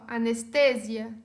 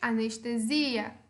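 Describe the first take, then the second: First: It is said with Spanish word stress. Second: It is said with Portuguese word stress. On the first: "Em espanhol" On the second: "Em português"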